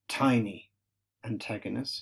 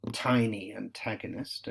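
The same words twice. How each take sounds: First: Tiny antagonist with the T of "tiny" and the T sounds of "antagonist" punched crisp and hard; stress on the T. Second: Said in the usual way. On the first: Shown as a demonstration. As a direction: hit every T in "tiny antagonist", tiny said louder. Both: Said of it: "emphasis on the T there".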